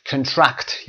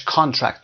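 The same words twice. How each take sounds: First: "contract" as kun-TRACT, the verb; stress on second syllable. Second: "کانترکت" as KON-tract, the noun; stress on first syllable. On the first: Teacher recalling the verb, "contract" stressed on TRACT. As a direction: stress the end of "contract", weak first vowel. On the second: Teacher contrasting the noun, "کانترکت" stressed on KON. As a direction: stress the start of "کانترکت", full first vowel. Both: Shown as a demonstration. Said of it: "که در برابرش کانترکت داشتیم".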